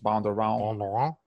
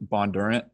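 First: The name is said with a French pronunciation. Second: The name is said quickly with a Southern accent. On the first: "in the proper French" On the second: "just like kind of like a quick Southern way"

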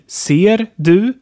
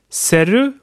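First: The d of 'du' is clearly pronounced. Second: The d is dropped, giving 'serre'.

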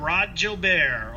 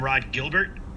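First: The surname has a French-Canadian pronunciation. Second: The surname has an English pronunciation.

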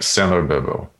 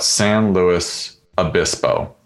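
First: The syllables run together quickly and slurred. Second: Each syllable is said slowly and clearly. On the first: This is how locals say the name. "in a much faster, almost more slurred way" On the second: This is how the name is written. "It's spelled out"

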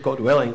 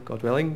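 First: It is said at fuller, louder volume. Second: It is said quietly, at low volume.

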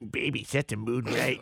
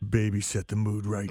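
First: It is read in a weird put-on voice. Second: It is read in a normal voice.

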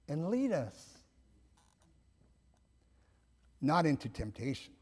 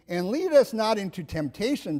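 First: A long pause follows 'lead us'. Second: The phrase runs on without a pause. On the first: God leads us, and not toward temptation. "we would say, and lead us, comma, long pause" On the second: God does not lead us toward temptation. "instead of saying"

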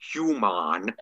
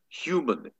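First: The word is said in the ordinary way. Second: The word is said in an unusual, character-specific way. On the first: This is how the others say it. "instead of human" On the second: This is how the one character says it. "he's the only Ferengi in all of Star Trek that says human"

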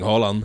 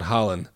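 First: The name is said with a Norwegian pronunciation. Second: The name is said with an English pronunciation. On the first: The speaker calls it right. "not to anglicize the pronunciation of the Norwegian names" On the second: The speaker calls it wrong. "His name is not Haaland"

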